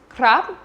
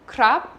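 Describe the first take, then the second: The two takes are said the same way.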